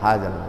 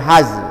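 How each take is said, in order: First: The word ends with a clearly sounded l. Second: The word ends without any l sound. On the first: The speaker calls it right. "menyebutkan huruf lamnya hazal" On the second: The speaker calls it wrong. "Jangan sampai haz"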